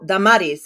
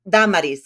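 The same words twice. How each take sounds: First: The stress falls on a later syllable. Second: The stress falls on the first syllable. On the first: This is how others usually say the name. The speaker calls it wrong. "and then they'll say" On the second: This is how the parents named her. The speaker calls it right. "al acento en primera"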